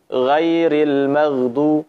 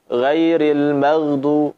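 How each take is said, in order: No difference in how they are said.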